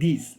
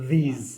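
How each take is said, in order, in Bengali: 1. শব্দটি একটি হিসহিসে s ধ্বনি দিয়ে শেষ হয়। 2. শব্দটি একটি গুনগুনে z ধ্বনি দিয়ে শেষ হয়। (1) "আমরা বাংলাদেশে যেটা মিসপ্রোনাউন্সিয়েশন করি, আমরা বলি দিস" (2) "লাস্টে যে অ্যাসি আছে সেটাকে আপনি বলবেন জেড, তাহলে হবে দিস"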